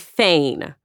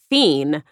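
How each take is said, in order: First: The vowel sounds like 'ay', rhyming with rain. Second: The vowel sounds like 'ee', like fiend. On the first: The speaker calls it right. "One of them would be fein, F-E-I-G-N" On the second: The speaker calls it wrong. "I always pronounced it fiend, and I learned I was wrong"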